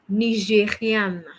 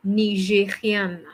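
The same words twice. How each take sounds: The two takes are said the same way.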